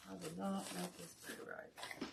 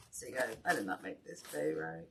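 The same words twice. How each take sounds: First: Much softer, under the breath; quiet rueful aside over the craft table; muttered to herself. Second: Said in the usual way. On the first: Real, not acted. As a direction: drop the voice, talking to yourself.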